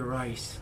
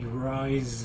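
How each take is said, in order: First: The word ends with a hissing s sound. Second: The word ends with a buzzing z sound. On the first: The speaker calls it wrong. "Some people will say rice, you know, or ri- the there's no stamp on the Z" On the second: The speaker calls it right. "I like when it said rise up"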